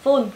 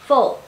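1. Nguyên âm là âm u ngắn, đơn thuần. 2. Nguyên âm nghiêng về âm o. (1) "chúng ta không đọc là full" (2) "đọc là full"

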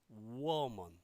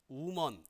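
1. w와 모음은 두 개의 빠른 소리입니다. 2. w와 모음이 하나의 소리로 합쳐집니다. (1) "우어먼 이렇게 재빨리 발음을 해줘야 된다" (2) "우먼 이게 아니라"

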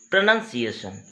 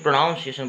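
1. दूसरा अक्षर 'nun' जैसा सुनाई देता है। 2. दूसरा अक्षर 'noun' जैसा सुनाई देता है। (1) "इसका एग्जैक्ट प्रोनंसिएशन है, एन यू एन" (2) "इसको अधिकांशतः स्टूडेंट्स बोलते समय गलत कर देते हैं"

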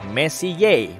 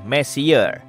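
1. Diucapkan seperti nama keluarga Prancis. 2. Diucapkan seperti kata bahasa Inggris messier. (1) "Diucapkan Messier" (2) "bukan Messier, yang artinya lebih berantakan"

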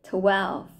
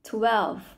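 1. คำนี้มีเสียง v ชัดตอนท้าย 2. คำนี้มีเสียง v ชัดตอนท้าย

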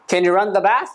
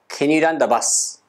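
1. 最後の単語ははっきりした th の音で終わります。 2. 最後の単語は s の音で終わります。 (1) "しっかり音が止まるので、しっかり止めてください。そしてth の音をしっかり出してください。" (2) "バスって言うと、ビーユーエスに聞こえます。"

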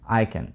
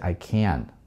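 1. Ударение падает на слово I. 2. Ударение падает на слово can. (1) "Так здесь практически Nikon" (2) "ударение на I не делаете"

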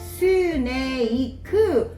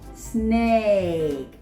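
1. 여러 음절로 나눠서 말해요. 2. 한 음절로 말해요. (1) "이렇게 하면 안 된대요" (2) "한 개로"

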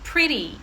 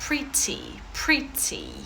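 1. Це сказано з американським акцентом. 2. Це сказано з британським акцентом. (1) "якщо такий американський акцент, так, як у мене, то це буде just «pretty»" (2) "А якщо ви хочете британський варіант"

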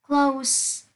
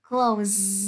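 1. Từ này kết thúc bằng âm s xì. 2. Từ này kết thúc bằng âm z rung. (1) "Close là tính từ sẽ đọc là S" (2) "Còn close động từ sẽ đọc là close"

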